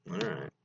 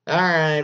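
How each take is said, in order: First: "All right." said low and soft, trailing off. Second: "All right." said louder and higher, like a fresh start. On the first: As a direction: mutter "All right." quietly under the breath. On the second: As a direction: punch out "All right." loudly to restart. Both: Shown as a demonstration.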